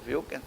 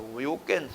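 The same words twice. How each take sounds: First: The name starts with a German-like V sound. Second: The name starts with a W sound. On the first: "se você falar como alemão" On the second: "ou você pode falar Wilkins"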